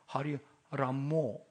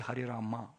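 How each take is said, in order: First: The name ends with an 'o' vowel. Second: The name ends with an 'a' vowel. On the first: The speaker calls it wrong. "you chanted Hari Ramo" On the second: The speaker calls it right. "you have to say Hari Rama"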